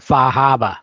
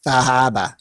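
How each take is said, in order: First: Boston-style Far Harbor, no r sounds; New England accent. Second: New England accent. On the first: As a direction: drop the r's: Fah Hahbah. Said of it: "you weren't saying it with the correct New England accent". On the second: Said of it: "correct New England accent". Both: Shown as a demonstration.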